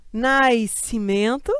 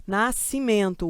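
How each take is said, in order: First: Nascimento slowed right down as nais-cimento, with an i glide; wrong pronunciation. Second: Nascimento a little slow, nas-ci-mento with no i glide; correct pronunciation. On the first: Teacher mocks the carioca way of saying Nascimento. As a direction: stretch Nascimento out, sounding an i before the S. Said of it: "não é assim que pronuncia". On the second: Teacher gives the correct Nascimento after mocking the wrong one. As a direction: say Nascimento cleanly, the S melting into the C. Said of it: "Eu ouço apenas o C". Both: Shown as a demonstration.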